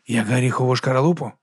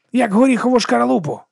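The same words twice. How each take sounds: First: Grumbling. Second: Excited exclamation. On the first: Monk grumbles back at Viga's simile, grumbling. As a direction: mutter it back, unconvinced. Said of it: "буркнув він". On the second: Viga urges the monk to cast it away, excited. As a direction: throw the simile out with glee. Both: Acted.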